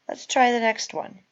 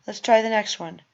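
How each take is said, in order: No difference in how they are said.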